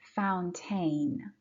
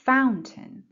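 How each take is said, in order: First: The second syllable has a full, strong vowel. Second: The second syllable has a short, weak vowel. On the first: The speaker calls it wrong. "Be careful, we don't say fountain" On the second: The speaker calls it right. "کوتاه تلفظش میکنه. مثل یه A کوتاه"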